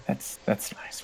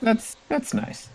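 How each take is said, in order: First: Very soft, nearly voiceless echo; muttered echo. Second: High, slow, soft wizard voice; polite wizard. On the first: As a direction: echo it under your breath. Second wizard echoes the first. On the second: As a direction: draw it out softly, pitched right up. Wizards politely answer the monk. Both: Acted.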